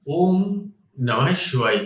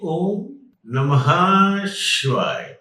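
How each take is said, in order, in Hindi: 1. 'nama' के बाद 'ha' की ध्वनि छोटी है। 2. 'nama' के बाद 'ha' की ध्वनि खिंची हुई है।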